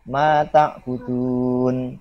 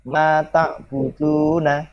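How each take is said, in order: First: It ends in 'n' after a lengthened vowel. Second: It ends with a short final 'na' syllable. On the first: The reader stops at the end of the verse. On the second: The reading continues without stopping.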